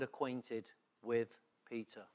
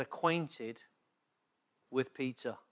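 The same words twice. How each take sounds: First: "acquainted" drawn out slowly, low and soft; slow, hushed weight on "acquainted", then "with Peter"; underlined ACQUAINTED. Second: Said in the usual way. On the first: Shown as a demonstration. Preacher has listeners underline the word, slow stress on "acquainted". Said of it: "Underline that word".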